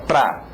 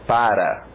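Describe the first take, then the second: First: The word is shortened to one syllable, pra. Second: The word is said fully with two syllables. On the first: "distorcê-la para ficar pra" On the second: "Você tem que começar aprendendo a palavra para"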